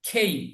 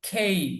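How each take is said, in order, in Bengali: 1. প্রথম K ধ্বনিতে জোরালো ফুঁ আছে। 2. প্রথম K ধ্বনিতে জোরালো ফুঁ আছে।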